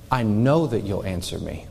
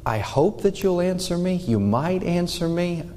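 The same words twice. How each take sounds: First: Lower, calm and firm certainty; confident certainty. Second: Higher, tentative hopeful plea; unsure hoping. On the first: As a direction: state it as a settled fact. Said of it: "No, he's saying it". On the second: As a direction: ask as if unsure the answer will come. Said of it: "he's not saying it from a". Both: Shown as a demonstration.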